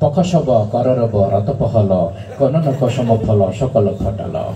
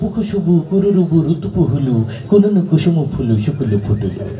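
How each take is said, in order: First: Every syllable uses only the plain inherent vowel. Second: Every syllable uses the vowel u. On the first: No vowel signs existed yet. "আকার ও শিকার কিছু আবিষ্কার হয় নাই" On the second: The u vowel sign had just appeared. "রস্যুকার আবিষ্কার হইলো"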